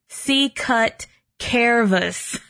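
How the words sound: It is said with an American English pronunciation. "in American English, it would be"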